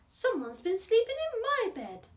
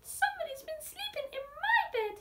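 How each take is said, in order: First: It is said in a gasping breathy voice. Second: It is said in a squealing high voice.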